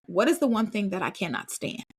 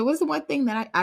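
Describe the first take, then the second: First: Said in the usual way. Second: "What is the one thing" pitched higher; re-ask "What is the one thing" insistently, up high; insistent repeat. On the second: Retold or imitated. Repeats question after kids' "Huh?.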